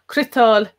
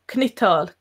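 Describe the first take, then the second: First: The first consonant runs straight into an R. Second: A short vowel separates the first two consonants. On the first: "the C is just running right into the R" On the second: "There's like a vowel"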